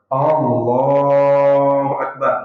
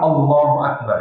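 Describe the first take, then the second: First: The first vowel is drawn out long. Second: The first vowel is kept short. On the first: It asks whether God is the greatest. The speaker calls it wrong. "Yang pertama A-nya panjang" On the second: It states that God is the greatest. The speaker calls it right. "yang benar adalah"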